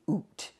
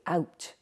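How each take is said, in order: First: The vowel is an oo sound. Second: The vowel is an ow sound. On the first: This is the local Doric dialect form. "in Bucky you can say oot" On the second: This is the standard Scottish English form. "in standard Scottish English we say out"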